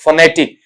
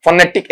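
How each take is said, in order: First: फनेटिक said "fuh-NET-ik"; फनेटिक with a schwa start; correct pronunciation. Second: फोनेटिक said the mistaken way; फोनेटिक, offered as the mistake; wrong pronunciation. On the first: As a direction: say फनेटिक with a weak first vowel. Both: Shown as a demonstration. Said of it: "ऐसा भी नहीं".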